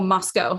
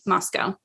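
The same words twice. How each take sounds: First: Moscow is said with a non-American pronunciation. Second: Moscow is said with an American pronunciation. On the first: The speaker calls it right. "or Moscow, sorry, I should say" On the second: The speaker calls it wrong. "I pronounced it in the American way"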